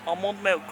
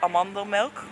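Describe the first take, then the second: First: Said in the usual way. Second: "Amandel milk" said the Dutch way, ah-MAN-del with a short open vowel; Dutch pronunciation. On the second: Shown as a demonstration. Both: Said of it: "'cause we say".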